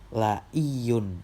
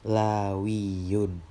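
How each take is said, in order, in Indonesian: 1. Konsonan di tengah itu hamzah. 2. Konsonan di tengah itu bunyi w. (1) "kalau tadi la'iyun memakai hamzah" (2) "mengganti hamzahnya dengan huruf waw"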